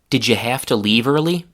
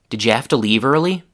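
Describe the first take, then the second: First: The h in 'have to' is pronounced. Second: The h in 'have to' is left out. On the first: "Four changes from the full form" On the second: "Here the h from the already reduced have to was eliminated completely"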